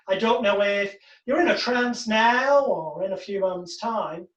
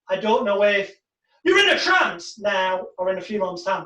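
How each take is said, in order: First: The sentence is said evenly, without marked emphasis. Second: The voice rises to mark 'in a trance now'.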